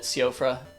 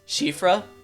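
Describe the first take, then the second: First: The name begins with a plain s sound. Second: The name begins with an sh sound. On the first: The speaker calls it wrong. "In my ignorance, I originally just called it Siofra" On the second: The speaker calls it right. "I know that there was a sh in there somewhere"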